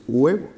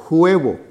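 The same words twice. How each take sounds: First: Huevo with the h silent, "uebo"; correct pronunciation demo. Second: Huevo with a breathed h like Spanish j, "juevo"; higher huevo opening on a j sound; wrong pronunciation demo. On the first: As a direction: start huevo straight on the u vowel. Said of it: "es huevo". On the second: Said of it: "Entonces no decimos". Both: Shown as a demonstration.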